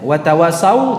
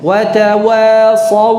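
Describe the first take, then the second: First: The s-sound is thin, with a gliding vowel. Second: The s-sound is full and heavy, tongue raised. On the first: The speaker calls it wrong. "Watawasau tidak" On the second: The speaker calls it right. "Angkat pangkal lidahnya. Suaranya membesar"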